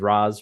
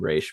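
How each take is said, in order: First: The name is said like 'Roz'. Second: The name is said like 'Raish'. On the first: It follows one co-creator's preferred pronunciation. "if you wanted to go under the Neil Adams Roz pronunciation" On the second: It follows the habit of the hosts and the show. "we'll be calling him Raish because we can't help it"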